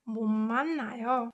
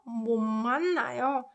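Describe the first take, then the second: The two takes are said the same way.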